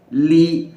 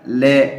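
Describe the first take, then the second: First: The vowel is a thin, clear i. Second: The vowel sounds like an open e. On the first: The speaker calls it right. "tapi li harus tipis" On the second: The speaker calls it wrong. "Jangan sampai ada e"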